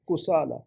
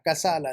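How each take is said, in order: First: The first vowel is a 'u' sound. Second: The first vowel is an 'a' sound. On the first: The speaker calls it right. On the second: The speaker calls it wrong. "कसाला नहीं"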